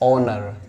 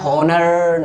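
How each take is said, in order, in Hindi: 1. शब्द की शुरुआत स्वर ध्वनि से होती है। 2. शब्द की शुरुआत h ध्वनि से होती है। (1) "एच को साइलेंट कर दीजिए और पढ़िए ऑनर" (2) "हॉनर नहीं इसको पढ़ना है"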